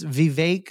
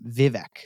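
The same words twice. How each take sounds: First: The second syllable rhymes with cake. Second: The second syllable does not rhyme with cake. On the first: The speaker calls it wrong. "it's Vivek like cake" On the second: The speaker calls it right. "That's how you say his name"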